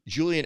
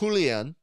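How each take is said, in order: First: The name is said without a foreign accent. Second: The name is said with a foreign accent.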